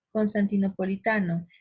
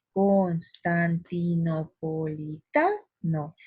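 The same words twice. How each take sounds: First: Said in the usual way. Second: Cons-tan-ti-no-po-li-TA-no, drawn out, strong beat on TA; stress on TA. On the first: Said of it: "Tenemos aquí el ejemplo". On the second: Shown as a demonstration. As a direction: draw out constantinopolitano and hit the TA hard. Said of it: "porque yo pronuncio así".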